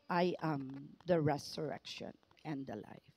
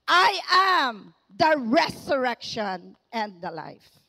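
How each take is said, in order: First: It is said in a calm, quiet way. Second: It is shouted with excitement and authority.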